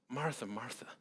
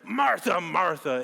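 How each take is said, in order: First: It is said in a tender, compassionate tone. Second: It is said in a harsh, frustrated tone.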